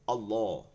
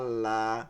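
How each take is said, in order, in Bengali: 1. L-টি ভারী ও মোটা উচ্চারিত হয়। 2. L-টি হালকা ও পাতলা উচ্চারিত হয়। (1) "যেটা শুদ্ধ আল্লাহ হবে" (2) "এরকম ডাকলে তো আল্লাহ শুনবে না"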